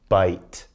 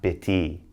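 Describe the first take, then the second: First: It ends on the t with no extra vowel. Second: An extra vowel is sounded after the t. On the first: The speaker calls it right. "Bite, not bitty" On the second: The speaker calls it wrong. "not bitty"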